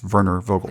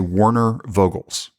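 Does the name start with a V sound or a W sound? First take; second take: V sound; W sound. First: The name starts with a V sound. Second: The name starts with an English W sound. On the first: The speaker calls it right. "but it's" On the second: The speaker calls it wrong. "is how I would say it"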